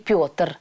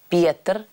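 First: The vowel after P is yo. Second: The vowel after P is a plain e. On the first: This is the modern form of the name. "а не Петр, как это имя звучит сейчас" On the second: This is the Church Slavonic form of the name. "именно Петр через «е»"

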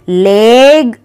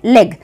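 First: The vowel is drawn out long. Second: The vowel is said short. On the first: The speaker calls it wrong. "हम उसको लेग ऐसे नहीं बोलते ना" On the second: The speaker calls it right. "छोटा हम बोलते हैं लेग"

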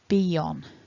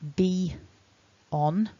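First: A y sound links the two words smoothly. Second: The two words are separated by a clear gap. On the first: "we add this linking y" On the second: "I have to leave quite a pronounced gap"

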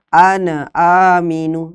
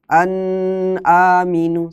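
First: The n bounces with an added vowel after it. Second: The n is held long with a nasal hum. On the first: "Atau dipantulkan" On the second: "jangan dilamakan seperti dengung"

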